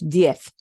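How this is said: The word ends with a soft th sound. "In Spain, that is pronounced diez with a th at the end. The z at the end sounds like a th"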